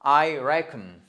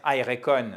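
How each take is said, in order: First: "reckon" louder on RECK, short weak ending; first-syllable stress. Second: "reckon" as re-KON, full vowel at the end; wrong stress. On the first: Teacher correcting learners, "reckon" stressed firmly on RECK. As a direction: hit RECK in "reckon", swallow the second vowel. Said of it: "le stress est sur on the first syllable". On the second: Teacher warning nobody will understand, "reckon" as re-KON. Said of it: "personne ne va vous comprendre". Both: Shown as a demonstration.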